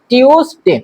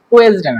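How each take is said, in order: First: The word starts with a 'tyoo' sound. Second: The word starts with a plain 'too' sound. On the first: The speaker calls it right. "এটা সঠিক উচ্চারণ হচ্ছে টিউসডে" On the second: The speaker calls it wrong. "টুয়েসডে না"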